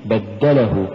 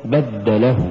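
First: بدله as one word stressed on دَّ; joined بدله, light ل; correct word. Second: بدله split as بدَّ له; two-word stress on بدله; wrong split. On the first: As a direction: push the د in بدله. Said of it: "لأنها من التبديل". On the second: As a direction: push the ل in بدله. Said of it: "وليست". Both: Shown as a demonstration.

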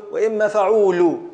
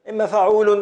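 First: "فعول" ending on an open -u; emphatic open fa-uu-LU on "فعول"; nun dropped. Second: "فعول" ending in a sounded -un; emphatic fa-uu-LUN on "فعول"; full form with nun. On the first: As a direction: say "فعول" as fa-uu-lu, with no final n. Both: Shown as a demonstration. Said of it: "بحذف هذه النو".

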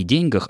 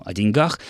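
First: "деньгах" with a higher, stressed день; stress on the first syllable. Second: "о деньгах" stressed on the last syllable; shifted stress. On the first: Presenter denies it is an error, first-syllable stress in ДЕНЬгах. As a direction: say ДЕНЬгах, weight at the start. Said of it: "ошибка, это очень и очень далеко". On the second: Presenter cites the increasingly heard form, end-stressed о деньГАХ. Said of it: "в дальнейшем ударение будет смещаться". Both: Shown as a demonstration.

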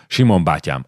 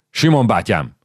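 First: Said in the usual way. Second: Calling out. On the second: Acted. Officer calling the old soldier to him, a bit louder. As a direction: call his name across the column, a touch louder.

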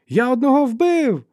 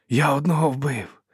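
First: Very high, loud, drawn-out cry; excited shout. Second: Slower, moderately raised exclamation; repeated boast. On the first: Young fighter announces his kill to comrades, shouting. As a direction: yell out the kill at full voice. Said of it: "вигукнув він". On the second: Fighter repeats his kill to comrades, moderately raised voice. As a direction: say it higher, short of a shout. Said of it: "повторив він". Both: A narrator's reading.

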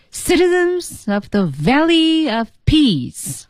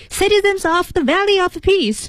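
First: Slow, high "Citizens" hit hard, the small words light; projected announcement with clear stress; strong and weak beats. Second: High "Citizens of the Valley of Peace" with every word equally heavy; bad example of yelling at a crowd; wrong way, flat yelling. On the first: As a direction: call it across a big hall with rhythm. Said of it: "你一定是有轻有重的". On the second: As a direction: shout it flat with no rhythm. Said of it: "就不能这么喊". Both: Shown as a demonstration.

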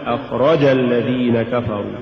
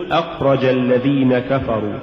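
First: أخرج الذين كفروا with too much stress on the ra; أخرج sounding dual, accent on رَ; overstressed ra. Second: Said in the usual way. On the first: Shown as a demonstration. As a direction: punch the رَ in أخرج. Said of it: "هو زيادة نبرة الراء". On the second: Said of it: "قل".

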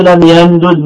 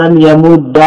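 First: لم يمدد with both dals pronounced apart, no merging; separated double d. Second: لم يمد with the two dals merged into one doubled dal; merged double d. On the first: A teacher demonstrating the unassimilated form to students, carefully articulated. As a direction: split the dals in لم يمدد clearly, d then d. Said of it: "بالفك". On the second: A teacher demonstrating the assimilated form to students, clearly articulated. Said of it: "بالإدغام". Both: Shown as a demonstration.

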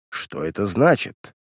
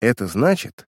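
First: Low, drawn-out question through a hiss; menacing, slow and held back. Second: Composed, even-voiced answer; unruffled, at her usual pitch; calm reply. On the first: Weston to his niece arriving with a policeman, hissing. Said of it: "прошипел Вестон". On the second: Niece answering her hostile uncle, calmly. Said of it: "спокойно произнесла Лилиан". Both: A narrator's reading.

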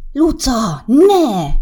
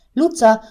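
First: Loud, high scolding cry to his little sister; sharp warning shout. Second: Said in the usual way. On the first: Acted. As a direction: snap her name and stop her hand. Brother stops sister's hand. (hirtelen, hangos rászólás a húgára)

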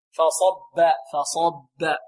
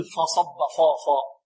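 First: فصب with light ف, heavy ص, light ب; heavy between light. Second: فصب with ف wrongly thickened, then heavy فا. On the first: Teacher models separating letters, heavy ص alone in فصب. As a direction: keep only the ص thick in فصب. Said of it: "مفخم بين مرقق". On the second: Teacher shows the error to avoid, thick ف in فصب. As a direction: let the weight of ص spill into ف in فصب. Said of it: "لا نقول". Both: Shown as a demonstration.

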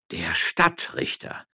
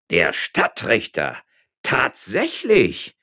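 First: Slow, hushed, breathy repetition; awed, drawn-out murmur; astonished echo. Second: Slow, loud, stretched-out amazement; drawn-out stunned exclamation; utterly astonished. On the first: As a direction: echo it in a stunned near-whisper. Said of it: "wiederholten alle". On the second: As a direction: say it slowly, voice leaping up in disbelief. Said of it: "erklärte Herr Juan López ganz erstaunt". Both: A narrator's reading.

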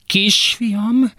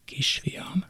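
First: Much higher, choked rising cry; mother's strangled cry for her son; strained high call. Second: Barely audible whisper; whispered plea to the son. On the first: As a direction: let it break upward. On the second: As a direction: breathe it almost silently. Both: Acted.

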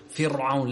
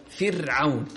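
First: فرعون with a thick, broad ra; wrong heavy ra. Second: فرعون with the ra thinned and light. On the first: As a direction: imitate the common error, a heavy ra in فرعون. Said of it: "في ناس تقول". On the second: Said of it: "رقق الراء". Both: Shown as a demonstration.

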